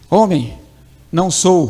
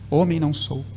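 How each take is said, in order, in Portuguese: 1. Há pausa depois da primeira palavra. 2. Não há pausa depois da primeira palavra. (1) "Olha a importância da vírgula" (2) "Imagine se não tivesse a vírgula aqui"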